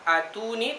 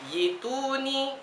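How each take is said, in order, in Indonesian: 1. Kata ini diawali dengan bunyi vokal 'a'. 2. Kata ini diawali dengan bunyi 'yi'. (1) "bukan atuni" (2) "tapi yituni"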